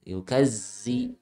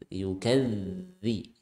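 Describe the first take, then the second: First: The middle consonant is a buzzing z sound. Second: The middle consonant is a 'th' sound, as in 'this'. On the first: The speaker calls it wrong. "jangan sampai seperti huruf zai ... Salah ya" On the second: The speaker calls it right. "posisikan ujung lidah nempel ke ujung gigi seri"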